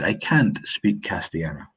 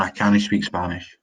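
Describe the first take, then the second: First: Said in the usual way. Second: Scots "cannae" for "can't". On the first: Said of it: "For example, I say". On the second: Shown as a demonstration. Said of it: "In Scots, we say".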